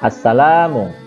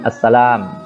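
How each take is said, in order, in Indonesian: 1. Kata ini diakhiri dengan vokal u. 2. Kata ini diakhiri dengan bunyi m.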